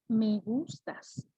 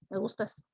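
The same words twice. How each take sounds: First: It is said tenderly with a marked melody. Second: It is said flatly with little melody. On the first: The feeling comes across. The speaker calls it right. "A que digas" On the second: The feeling does not come across. The speaker calls it wrong. "No es lo mismo que le digas a alguien"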